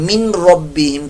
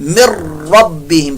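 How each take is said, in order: First: The n sound is clearly pronounced before the r. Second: The n merges into a doubled r sound. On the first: The speaker calls it wrong. "नून की आवाज को निकालते हैं, मिन रब्बिहिम करके पढ़ते हैं, ये गलत है" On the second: The speaker calls it right. "नून जो है ये साइलेंट हो जाएगा"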